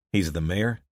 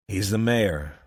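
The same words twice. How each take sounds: First: "He's the mayor?" asked with a doubtful upward lift; "He's the mayor?" as a surprised question; rising question. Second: "He's the mayor," stated with a falling, knowing tone; "He's the mayor," settled and falling; flat statement. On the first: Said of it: "He's the mayor, like you say". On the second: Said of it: "like you say". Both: Acted.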